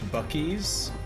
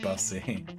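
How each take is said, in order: First: The middle consonant is a K sound. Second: The middle consonant is an S sound. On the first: The speaker calls it right. "a gas station's named Bucky's" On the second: The speaker calls it wrong. "He calls it Bussy"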